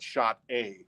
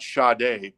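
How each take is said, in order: First: It is said like the words 'shot A'. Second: It is said as the singer's name. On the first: This is a joking nickname from a misreading. "but Shot A" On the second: This is the proper name. "Not Sade"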